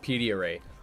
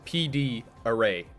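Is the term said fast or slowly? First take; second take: fast; slowly. First: It is said quickly, the letters run together. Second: It is said slowly, each letter distinct.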